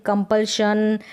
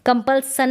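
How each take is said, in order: First: कंपल्शन with a clear sh; teacher says कंपल्शन right with sh; correct sh sound. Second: कंपल्सन with a plain s, not sh; teacher shows the wrong s in कंपल्सन; wrong s sound. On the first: Teacher to class, correct sh model. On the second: Teacher to class, showing the mistake. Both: Shown as a demonstration. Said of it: "कंपल्सन नहीं पढ़ेंगे".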